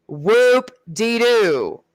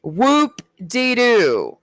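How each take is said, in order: First: Very slow, dragged-out "Whoop-de-doo" with a fall; sarcastic drawl. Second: Sarcastic drawl. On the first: Mocking his Special Forces plans, slow sarcastic "Whoop-de-doo". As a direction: stretch "Whoop-de-doo" out, unimpressed. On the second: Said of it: "Whoop-de-fucking-do". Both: Acted.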